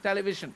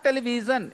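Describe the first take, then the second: First: The consonant is a voiced zh. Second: The consonant is not a voiced zh. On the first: The speaker calls it right. "It is television" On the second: The speaker calls it wrong. "It is not television"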